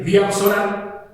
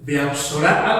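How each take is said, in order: First: Diapsora said slowly, syllable by syllable; careful slow first attempt at Diapsora; first try at the word. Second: Diapsora with the accent on the A, dia-PSO-ra leaning on the A; Diapsora, accent placed on the A; stress on the A. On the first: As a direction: spell out Diapsora slowly, unsure of the stress. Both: Shown as a demonstration. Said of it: "porque tiene acento en la A".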